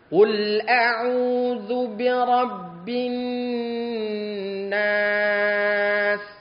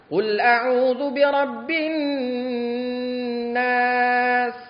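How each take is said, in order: First: It is recited at a moderate pace. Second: It is recited quickly. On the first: "tadwir, beda, lebih cepat dia" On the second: "Hadar lebih cepat lagi"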